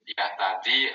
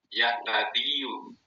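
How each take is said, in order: First: The word ends in 'ee' with no final vowel. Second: The word ends with a full 'yu' syllable. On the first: The speaker calls it right. "yu-nya dibaca sukun" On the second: The speaker calls it wrong. "itu lisan itu kepelintir, berat"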